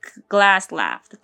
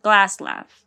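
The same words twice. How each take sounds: First: Glass laughed. ohne Pause, gleich weiter; no comma pause. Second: "Glass laughed" run together, stressed on Glass; "Glass laughed" as one clause, louder; no comma pause. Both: Shown as a demonstration. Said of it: "There's no comma. There's nothing".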